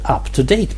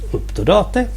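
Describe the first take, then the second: First: It is read with English pronunciation. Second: It is read with Swedish pronunciation. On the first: This is the brand's original name. "It was called Up to Date" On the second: People who could not pronounce the original said it this way. "old Ma and Pa couldn't pronounce that, they called it"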